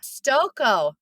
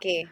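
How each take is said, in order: First: The name ends with an 'oh' sound. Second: The name ends with an 'ee' sound. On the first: The speaker calls it right. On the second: The speaker calls it wrong.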